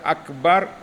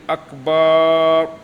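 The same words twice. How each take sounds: First: The vowel after the b is short. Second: The vowel after the b is drawn out long. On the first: The speaker calls it right. "pada kata akbar" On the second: The speaker calls it wrong. "memanjangkan harakat fathah yang terletak pada huruf ba ... sehingga menjadi akbar, maka solatnya tidak sah"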